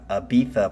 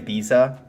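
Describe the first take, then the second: First: The middle consonant is a soft th sound. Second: The middle consonant is a buzzing z sound. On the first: The speaker calls it right. "it's a T H sound if you're going to be correct" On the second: The speaker calls it wrong. "I used to say Ibiza like when I was a kid"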